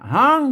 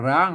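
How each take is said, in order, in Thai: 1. คำนี้ขึ้นต้นด้วยเสียง h 2. คำนี้ขึ้นต้นด้วยเสียง r (1) "ถ้าเป็นละนาเพิ่นออกเสียงฮอนะ" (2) "ถ้าไทยมันก็ร้างเนาะ"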